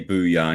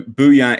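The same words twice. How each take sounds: First: Said in the usual way. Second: Loud catchphrase. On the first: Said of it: "Booyah" is a catchphrase". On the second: Shown as a demonstration. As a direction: shout Booyah out loud, falling. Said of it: "is a catchphrase".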